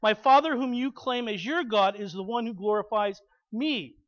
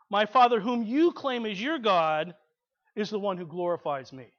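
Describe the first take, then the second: First: Said in the usual way. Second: 重读“you”，句尾渐轻; 把“you”点出来，慢慢说完; stress on you. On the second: Shown as a demonstration. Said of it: "Now there's an impacting statement".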